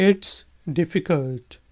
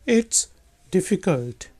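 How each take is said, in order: The two takes are said the same way.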